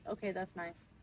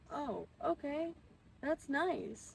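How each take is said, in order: First: It is said flat and blunt. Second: It is said warmly and friendly.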